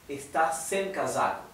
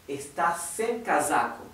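Both takes have the same delivery.

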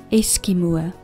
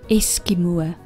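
Both takes have the same delivery.

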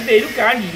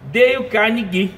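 First: Carnegie is said without a hard 'gui' ending. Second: Carnegie is said as 'carne' plus a hard 'gui'. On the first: The speaker calls it wrong. "acho que é Dale Carnegie, né? Falou, não" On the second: The speaker calls it right. "fica Deio ... fica só com Gui ... odeia carne"

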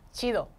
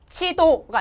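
First: It is said with a Mexican Spanish accent. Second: It is said with a Korean accent. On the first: The speaker calls it right. "멕시칸식으로 스페니쉬 발음으로" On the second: The speaker calls it wrong. "지도 이렇게 하면 너무 코리안 악센트"

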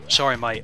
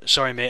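First: It is said in an attempted Australian accent. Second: It is said in the speaker's ordinary accent.

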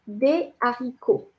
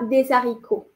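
First: The two words are kept apart, without a z. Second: A z sound links the two words. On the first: The speaker calls it right. "On dit des haricots" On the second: The speaker calls it wrong. "Et pas des haricots"

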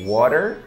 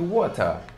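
First: The word is said in an American accent. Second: The word is said in a British accent. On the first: "inglês americano" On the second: "que é o inglês britânico, mais ou menos assim"

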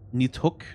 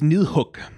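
First: The middle consonant is a hard 'd' sound. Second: The middle consonant is a soft voiced 'th'. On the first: "I think Swedish might have a harder Nidhogg" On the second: "In Danish, it is Nidhogg with a soft the"

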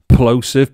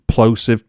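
First: The opening P is pushed out hard, with strain. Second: The opening P is released softly, without much force. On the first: "let me go and strain myself now" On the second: "I wasn't pushing that P too hard there"

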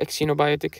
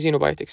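First: The word begins with a ks sound. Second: The word begins with a z sound. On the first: The speaker calls it wrong. "ما تقول إكسينوبايوتك" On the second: The speaker calls it right. "يلفظ حرف الزي"

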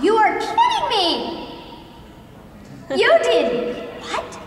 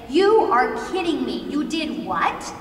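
First: A gasp and a long pause break it up. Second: It flows straight on without a long pause.

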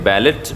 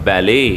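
First: The final t is clearly pronounced. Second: The word ends without a t sound. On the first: The speaker calls it wrong. "इसे बैलेट नहीं बोलेंगे" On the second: The speaker calls it right. "पर इसमें टी silent है"

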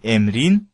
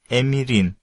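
First: The second-syllable vowel is dropped. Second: The second-syllable vowel is kept. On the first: The speaker calls it wrong. "не emrin" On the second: The speaker calls it right. "а emirin"

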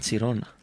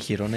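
First: The name starts with a 'ts' sound. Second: The name starts with an 'h'-like sound. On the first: The speaker calls it right. "είναι Τσιρόνα" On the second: The speaker calls it wrong. "δεν είναι Χιρόνα"

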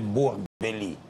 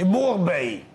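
First: The name ends with an audible 'l' before 'ee'. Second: The name ends without any 'l' sound. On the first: The speaker calls it wrong. "nu se spune Borbeli" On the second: The speaker calls it right. "E Borbei!"

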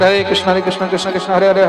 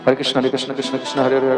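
First: The phrase is said loudly and aloud. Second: The phrase is said softly and quietly. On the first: "এটা উচ্চস্বর" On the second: "আস্তে আস্তে উচ্চারণ করে জপ করতে পারেন, সেটাকে বলা হয়েছে উপাংশু"

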